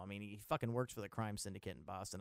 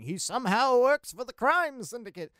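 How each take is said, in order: First: Said in the usual way. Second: Higher, louder hammed-up mysterious voice; mock mysterious. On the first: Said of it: "I say somehow". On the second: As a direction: ham up the somehow like a big secret. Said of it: "I say somehow like it's gonna be some mysterious thing".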